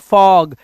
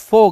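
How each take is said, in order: First: The vowel is an open 'aw' sound. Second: The vowel is a closed 'oh' sound. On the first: The speaker calls it right. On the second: The speaker calls it wrong. "फोग नहीं है"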